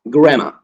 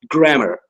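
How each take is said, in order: First: It is said in a British accent. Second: It is said in an American accent. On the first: "people in U K, they pronounce grammar" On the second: "in American English, it's pronounced grammar"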